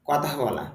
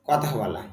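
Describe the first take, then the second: No difference in how they are said.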